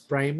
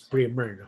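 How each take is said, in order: First: The first vowel sounds like 'eye'. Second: The first vowel sounds like 'ih'. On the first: The speaker calls it wrong. "The the the word we pronounce primer" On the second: The speaker calls it right. "is actually pronounced as primer"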